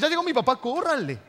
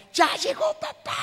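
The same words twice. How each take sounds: First: Put-on high, loud alarmed kid's cry; children yelling a warning to flee; scared kids warning. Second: Big, high, slow joyful announcement; happy dad shout. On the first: Kids warning siblings as angry dad arrives, alarmed cry. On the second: Retold or imitated. Father cheerfully announcing himself to his kids, joyful shout. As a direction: call out like a beaming father coming home.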